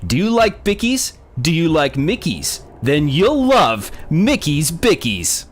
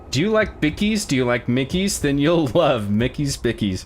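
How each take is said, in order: First: It is read in a put-on radio announcer voice. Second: It is read in a plain, normal speaking voice.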